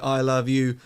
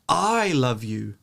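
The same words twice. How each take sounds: First: All three words get equal stress. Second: The stress is on the word I. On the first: The meaning is ambiguous. "three words say it in the same way" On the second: It is me, not someone else, who loves you. "If you stress the first term"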